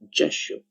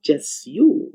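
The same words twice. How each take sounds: First: The s and y blend into sh. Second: The s and y sounds stay separate. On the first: The speaker calls it right. "you assimilate, and we get sure" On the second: The speaker calls it wrong. "it's not"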